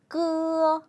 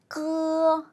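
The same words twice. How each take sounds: Both takes have the same delivery.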